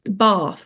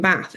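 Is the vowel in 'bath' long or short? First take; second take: long; short. First: The vowel in bath is long. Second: The vowel in bath is short. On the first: The speaker calls it right. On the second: The speaker calls it wrong.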